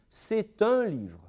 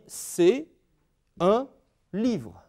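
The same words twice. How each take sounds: First: The words run together with a linking t sound. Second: A short pause separates c'est from un. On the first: "Il faut qu'ils disent" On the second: "faire une pause entre les deux"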